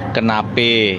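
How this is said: The final vowel is an 'e' sound. "kenape Betawi"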